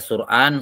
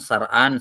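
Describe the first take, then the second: First: The first vowel is u. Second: The first vowel is a. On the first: "bisa di dhammah" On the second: "yang paling afshah adalah di fathah"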